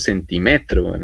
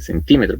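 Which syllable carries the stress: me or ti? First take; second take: me; ti. First: The stress falls on the syllable me. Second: The stress falls on the syllable ti. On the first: The speaker calls it wrong. "No le digo centímetro" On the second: The speaker calls it right. "sino que centímetro ... Eso se vuelven palabras esdrújulas"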